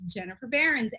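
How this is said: The name is pronounced with English sounds. "in English it's Jennifer Behrens"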